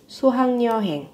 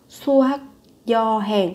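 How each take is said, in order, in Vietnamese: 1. Âm tiết thứ hai kết thúc bằng âm ng. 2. Âm tiết thứ hai kết thúc bằng âm k.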